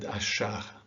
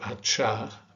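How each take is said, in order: First: The middle consonant is a soft 'sh' sound. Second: The middle consonant is a hard 'ch' sound. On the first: The speaker calls it right. "this is read as chuva and achar" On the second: The speaker calls it wrong. "Naturally, you would want to say chuva uh, or achar"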